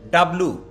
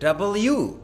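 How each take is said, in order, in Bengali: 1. W দুই সিলেবলে সংক্ষেপে বলা হয়। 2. W পুরোপুরি তিন সিলেবলে বলা হয়। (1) "ডাব্লু বলা যাবে না" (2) "বলতে হবে ডাবল ইউ"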